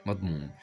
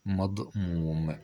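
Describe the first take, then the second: First: Said in the usual way. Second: Slow, stretched مضموم; drawn out. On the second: Shown as a demonstration. Teacher naming the vowel before hamza, مضموم drawn out. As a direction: hold the long vowel of مضموم.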